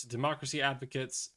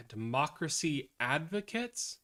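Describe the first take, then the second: First: Said in the usual way. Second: Skeptical question. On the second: Real, not acted.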